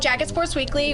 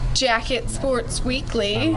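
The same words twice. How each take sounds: First: The name is said at a normal pace. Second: The name is said slowly.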